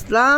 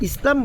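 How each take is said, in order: First: The vowel in the last syllable is drawn out. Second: The vowel in the last syllable is short. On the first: The speaker calls it right. "লামের মধ্যে একটা আলিফ টান আছে" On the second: The speaker calls it wrong. "লামের মধ্যে টান না দিলেন"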